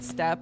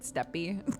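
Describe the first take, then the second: First: The word is said as one syllable. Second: The word is said as two syllables. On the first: "some people in this game pronounce it step" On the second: "some people pronounce it steppy"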